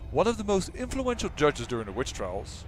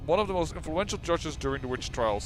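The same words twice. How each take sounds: First: It is read in a dramatic narrator voice. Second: It is read in a plain, ordinary voice. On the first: The speaker calls it right. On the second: The speaker calls it wrong.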